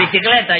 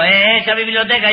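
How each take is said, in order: First: «Bicicleta» said right after the correction; corrected bicicleta. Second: «biblioteca» said in place of bicicleta; malaprop biblioteca. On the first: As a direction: repeat «Bicicleta» properly. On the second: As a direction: trip over the word, saying «biblioteca». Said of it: "¿Qué biblioteca?". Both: Acted.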